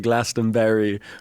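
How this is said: The ending is said like 'berry' in American style. "my girlfriend would say"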